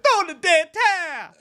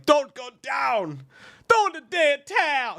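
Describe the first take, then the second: First: High mock corner-man yell in a put-on voice; hammed-up boxing trainer shout. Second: High, far-off mock trainer yell, first words dragged slow; hammed-up boxing coach shout. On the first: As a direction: shout it from ringside. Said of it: "had the trainer from Rock and be like". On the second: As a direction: bellow it like a corner man. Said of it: "Apollo's coach yelling".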